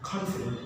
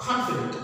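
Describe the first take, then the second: First: Said in the usual way. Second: "confident" stressed on CON; emphasis on first syllable. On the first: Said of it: "Did you hear the difference?". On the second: Shown as a demonstration. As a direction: lean on the opening syllable of "confident". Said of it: "pronouncing with a very loud emphasis".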